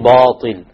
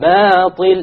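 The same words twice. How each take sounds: First: The long a vowel is heavy and full. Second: The long a vowel is light and thin. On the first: The speaker calls it wrong. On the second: The speaker calls it right.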